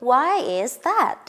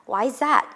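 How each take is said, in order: First: The words are said separately and distinctly. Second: The words are run together smoothly.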